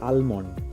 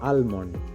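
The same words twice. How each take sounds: First: The 'l' sound is pronounced. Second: The same.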